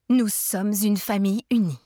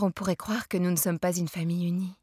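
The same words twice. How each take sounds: First: Louder, stress on Nous, each word firm; repeated forcefully. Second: Said in the usual way. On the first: A narrator's reading. Mother insisting to her child, forceful repeat. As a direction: insist that Nous sommes une famille unie is final. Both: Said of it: "répéta fortement".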